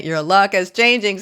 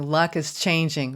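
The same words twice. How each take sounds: First: Louder, stress on "changing" with a falling tune; emphatic repeat. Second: Said in the usual way. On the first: Shown as a demonstration. Reader to Sag, repeating with strong stress on "changing". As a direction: lean hard on "changing".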